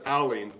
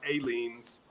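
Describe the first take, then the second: First: The first syllable sounds like 'al'. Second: The first syllable sounds like 'ay'. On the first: This is the local way of saying it. "here in Oklahoma, we we pronounce it Alleens" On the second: Other people say it this way. "I've heard it pronounced Aliens"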